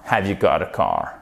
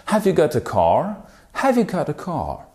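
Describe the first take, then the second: First: Said in the usual way. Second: British English, higher, rising at the end; British English rising question. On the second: Shown as a demonstration. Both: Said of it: "En anglais britannique".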